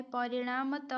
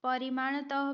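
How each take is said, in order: First: परिणामतः with retroflex n before m; the proper "parinaama-taha" order in परिणामतः; correct form. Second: परिमाणतः with m before retroflex n; the mistaken "parimaana-taha" order in परिमाणतः; wrong form. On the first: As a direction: say "naa-ma" inside परिणामतः. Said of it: "परिणामतः होता है". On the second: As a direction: say "maa-na" inside परिमाणतः. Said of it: "भी नहीं होता है". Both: Shown as a demonstration.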